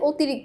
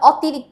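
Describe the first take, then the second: First: The first vowel is a closed 'o' sound. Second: The first vowel is an open 'aw' sound. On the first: The speaker calls it right. "আমরা বলি" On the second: The speaker calls it wrong. "আমরা কিন্তু বলি না"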